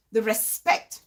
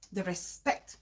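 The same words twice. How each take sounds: First: Said in the usual way. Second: The respect repeated much softer and lower; fading repeat. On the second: Real, not acted. Repeating the last virtue to viewers, trailing off softly. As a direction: let the respect fade away.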